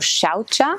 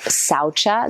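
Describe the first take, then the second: First: The word begins with an sh sound. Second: The word begins with a plain s sound. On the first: The speaker calls it right. "the pronunciation actually is shaucha" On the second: The speaker calls it wrong. "most often um, called saucha"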